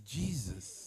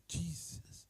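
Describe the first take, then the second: First: Low hushed Jesus; awed hush. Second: Breathless whispered Jesus; awed whisper. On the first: A nonbeliever sees the shining face, hushed awe. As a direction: breathe Jesus softly in wonder. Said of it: "and then they say". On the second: A stranger sees the shining face, awed whisper. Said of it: "someone look at you and say". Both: Retold or imitated.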